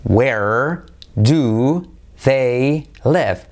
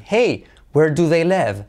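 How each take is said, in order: First: "where do they live?" drawn out slowly and firmly; slow model question. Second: "hey, Where do they live?" with a lilting "hey" and a falling "live"; a friendly sing-song question; rising hey intonation. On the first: Teacher slowing the question down for learners. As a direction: stretch each word of the question. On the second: Teacher modelling a lively question for students. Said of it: "Entonación". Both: Shown as a demonstration.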